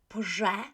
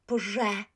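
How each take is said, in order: First: The sound after p is a voiced buzz. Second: The same.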